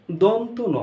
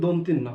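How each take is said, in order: First: "দন্ত ন" as two words, don-to no; corrected pronunciation. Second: "দন্তিন্য" merged as don-tin-no; common mispronunciation. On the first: Teacher correcting the letter's name, distinct "দন্ত ন", don-to no. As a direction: separate "দন্ত" from a single "ন". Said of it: "এটা হবে কি?". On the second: Teacher showing the supposedly proper error, "দন্তিন্য" as dontinno. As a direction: say "দন্তিন্য" as one word with tin. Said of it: "আসলে দন্তিন্য নয়". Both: Shown as a demonstration.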